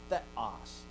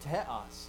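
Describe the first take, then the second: First: It begins with a soft th sound. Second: It begins with a t followed by a breath. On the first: This is how most people say it today. "not theos" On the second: This is how the ancient speakers said it. "So theta is taha. So they said teos"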